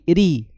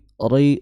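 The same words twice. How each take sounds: First: The r is said thin and light. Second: The r is said thick and heavy. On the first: The speaker calls it right. "ro yang tarqiq atau ro tipis" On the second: The speaker calls it wrong. "jangan jangan tebal ya"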